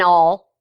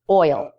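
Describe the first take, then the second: First: It is said in a Texas accent, like 'all'. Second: It is said with a standard, two-part vowel.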